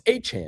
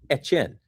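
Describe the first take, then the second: First: The name sounds like two syllables, A-Chan. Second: The name sounds like Etienne. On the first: The speaker calls it wrong. "oh, it's A-Chan" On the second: The speaker calls it right. "No, it's Etienne"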